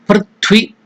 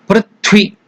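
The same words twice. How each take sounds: Both takes have the same delivery.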